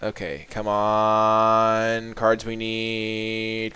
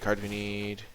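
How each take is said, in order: First: Slow, drawn-out plea to the deck; will the right card to come, slowly; pleading. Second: The same plea again, much softer; quiet repeat. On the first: Player begging the deck for the cards needed, slow pleading. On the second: Player repeating the plea to the deck under the breath, much softer. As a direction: murmur it to yourself, hope fading. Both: Real, not acted.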